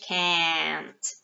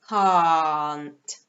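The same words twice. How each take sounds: First: It is said in an American accent. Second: It is said in a British accent. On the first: "American English can't" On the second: "a long sound"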